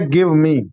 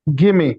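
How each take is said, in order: First: It is said as two full words. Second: It is said as one reduced word.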